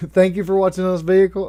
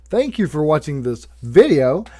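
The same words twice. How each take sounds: First: "vehicle" said for video, fast with a laugh; slip of the tongue. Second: Said in the usual way. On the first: Real, not acted. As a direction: laugh and trip over "vehicle". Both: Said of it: "I'm stuttering".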